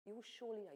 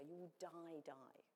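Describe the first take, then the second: First: Said in the usual way. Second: "die, die" said twice, sinking lower and much softer; Hebrew doubled emphasis. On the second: Shown as a demonstration. Preacher showing how Hebrew says "die, die", softly. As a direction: repeat "die" as a hushed falling echo. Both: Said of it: "Or in the Hebrew".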